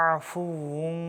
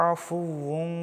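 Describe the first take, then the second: Both takes have the same delivery.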